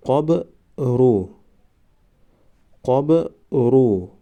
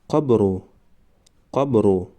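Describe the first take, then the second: First: قبرو stretched very slowly, syllable by syllable; drawn-out demo. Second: Said in the usual way. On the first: Shown as a demonstration. Teacher modelling the word for students, very slow. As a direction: draw out قبرو slowly for the class. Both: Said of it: "ما باید همان حرف را فقط آوازش را تلفظ کنیم".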